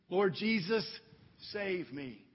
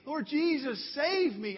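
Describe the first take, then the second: First: Said in the usual way. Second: Higher, pleading cry to Jesus; fervent cry. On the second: Acted. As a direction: lift it up like a real cry for rescue. Crying out and saying.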